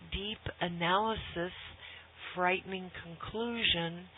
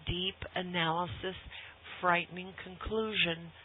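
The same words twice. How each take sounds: The two takes are said the same way.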